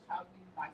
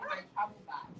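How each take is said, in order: First: "traveling back" with an -ing and a final k; mispronunciation demo. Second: "travel bag" with no -ing and a g ending; teacher's take of "travel bag"; corrected pronunciation. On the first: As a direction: show the mistaken "traveling back". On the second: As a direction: model "travel bag" for the class. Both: Shown as a demonstration. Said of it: "say my travel bag".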